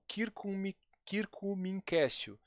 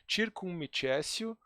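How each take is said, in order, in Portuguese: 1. Usa a pronúncia clássica reconstruída do latim. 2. Usa a pronúncia eclesiástica do latim. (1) "se você prefere a pronúncia reconstituída" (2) "se você é, pre prefere a pronúncia eclesiástica"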